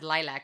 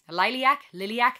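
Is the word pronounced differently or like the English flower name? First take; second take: English-style; different. First: It sounds like the English word for the flower. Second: It sounds different from the English flower word. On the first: It names a color and a flower. The speaker calls it wrong. "I said it wrong in my last reaction video. I said lilac, like the color, the flower" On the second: It is the Romanian word for bat. The speaker calls it right. "But the band's name is Lilac, and that is actually Romanian for bat"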